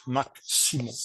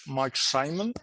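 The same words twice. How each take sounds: First: "Marc Simon", his name given the French way; French name form. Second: "Mike Simon", his name given the English way; English name form. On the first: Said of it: "and in French". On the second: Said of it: "my name is in English". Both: Shown as a demonstration.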